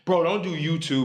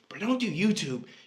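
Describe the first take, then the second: First: It is said in his normal voice. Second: It is said in a put-on Billy voice.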